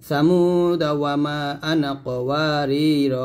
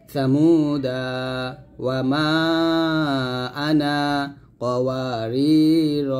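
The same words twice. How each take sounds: First: The phrases run together without stops between them. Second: Each phrase ends with a stop and lengthened vowel. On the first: The verses are recited as one connected unit. "তিনটা আয়াত আমি মিল করে পড়ছি" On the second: Each verse is recited separately. "এরকম ভাবে থামবেন।"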